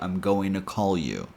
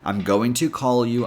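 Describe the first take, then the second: First: The t is dropped, blending into an n sound. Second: The word to has a full, clear o vowel.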